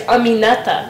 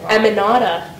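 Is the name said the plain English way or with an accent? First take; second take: accented; plain. First: The name is said with an added accent. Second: The name is said in a plain English way. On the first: This is how the name is really said. The speaker calls it right. "but it's Aminata. Like, you need to add like that kind of accent" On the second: This is how classmates said the name. The speaker calls it wrong. "everyone said my name like Aminata"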